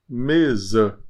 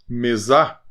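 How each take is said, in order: First: The final vowel is a reduced, intermediate sound. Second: The final vowel is a full open A. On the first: The speaker calls it right. "É um intermediário" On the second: The speaker calls it wrong. "Não, você não falou assim"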